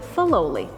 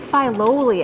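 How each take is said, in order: First: The first syllable sounds like 'fidelity'. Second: The first syllable sounds like 'fight'. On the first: The name is taken from the word fidelity. "they actually pronounced it Filoli, after fidelity" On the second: The name is taken from the word fight. "comes from the personal motto of the gentleman who built this place"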